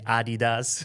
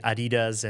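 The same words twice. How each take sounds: First: It is pronounced the German way. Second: It is pronounced the American way. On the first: "Germans say Adidas" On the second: "people in the U S or other countries say Adidas"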